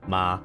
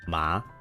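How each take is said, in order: First: The pitch stays flat and level. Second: The pitch rises like a question. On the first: "If it's a flat line, you say flat" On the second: "If it's a line that goes up, it's like a question"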